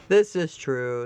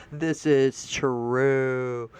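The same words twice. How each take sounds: First: Said in the usual way. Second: Lower, very slow This is true; slow agreement. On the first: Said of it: "repeat at usual pace". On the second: Real, not acted. Agreeing with the quoted post, very slowly. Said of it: "slow drawn agreement".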